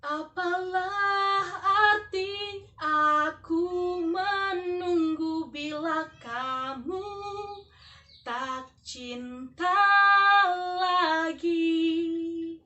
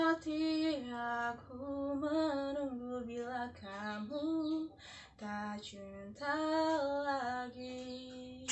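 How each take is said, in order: First: "Apalah arti aku menunggu bila kamu tak cinta lagi" sung slowly, every word shaped clearly; clear articulation. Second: "arti aku menunggu bila kamu tak cinta lagi" sung slow, much softer, words slurred together; mumbled articulation. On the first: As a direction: open the mouth and sing each syllable cleanly. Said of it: "Seperti ini kalau artikulasi yang jelas". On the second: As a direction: sing it lazily, barely opening the mouth. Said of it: "begini contohnya ketika artikulasi tidak jelas". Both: Shown as a demonstration.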